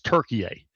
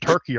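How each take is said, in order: First: It is said as the three-syllable 'Türkiye'. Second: It is said as the English two-syllable 'Turkey'. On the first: This is the newly adopted name. "All of a sudden, it's Turkey" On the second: This is the long-familiar name. "It's been Turkey our whole lives"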